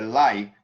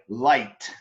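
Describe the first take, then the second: First: The final T sound is dropped entirely. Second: The final T sound is clearly pronounced. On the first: The speaker calls it wrong. "if you don't pronounce the T, it changes" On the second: The speaker calls it right. "I want to hear t at the end"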